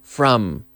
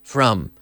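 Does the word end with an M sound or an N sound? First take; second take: M sound; M sound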